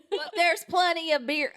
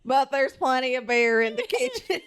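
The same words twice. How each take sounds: First: Mock country accent, a bit higher. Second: Laughing through a mock country accent; country accent with giggles breaking in; amused country-accent reading. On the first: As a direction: lay on a rural country accent. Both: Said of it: "Now we're country".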